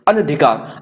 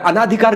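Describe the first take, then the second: First: The vowel after 'an' is a short 'a'. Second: The vowel after 'an' is a long 'aa'. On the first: The speaker calls it right. "अनधिकार बोलते हैं" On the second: The speaker calls it wrong. "अनाधिकार गलत है"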